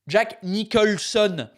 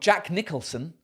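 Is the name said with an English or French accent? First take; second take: French; English. First: The name is said with a French accent. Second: The name is said with an English accent.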